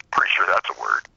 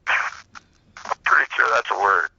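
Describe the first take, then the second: First: Said in the usual way. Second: A very slow, smug retold retort; slow drawn-out punchline. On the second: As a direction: stretch it out slowly, savoring the comeback.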